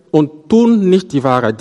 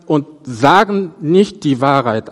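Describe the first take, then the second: First: "tun" stressed and falling, "nicht" kept light; accent moved onto "tun". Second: Said in the usual way. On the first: Shown as a demonstration. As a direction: punch the verb "tun" against the usual "sagen". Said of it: "Die Betonung hier liegt auf das Tun". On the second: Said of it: "Normalerweise würde man sagen".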